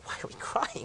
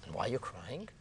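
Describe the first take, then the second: First: High, hushed disbelieving echo; incredulous echo. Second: Whispered question back; nearly voiceless, very soft asking; hushed counter-question. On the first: Weeping sages echo Akiva's question, incredulous. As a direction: throw the question back, high and whispery. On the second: Akiva answers his weeping friends, hushed counter-question. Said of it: "He says". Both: Retold or imitated.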